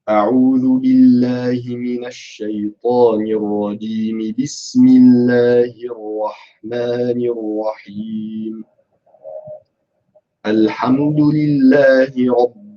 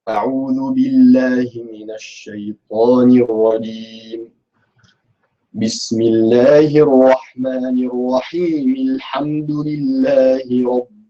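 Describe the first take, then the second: First: It runs straight on, then pauses after al-rahim. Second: It pauses after al-rajim, then runs straight on. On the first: "Link A and B. And then stop and say the beginning of the surah" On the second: "isti'adha, stop, basmala at the beginning of the surah, both of them in one go"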